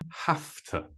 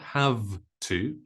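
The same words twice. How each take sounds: First: 'Have' ends with a voiceless F sound. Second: 'Have' ends with a voiced V sound. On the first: The speaker calls it right. "Have to is pronounced with an F sound, not a V sound" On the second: The speaker calls it wrong. "it's not have to"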